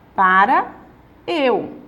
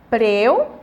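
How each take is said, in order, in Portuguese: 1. As duas palavras são ditas inteiras e separadas. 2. As duas palavras se fundem numa sílaba curta. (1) "como é que seria o correto? Para eu" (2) "Preu, como é que seria o correto?"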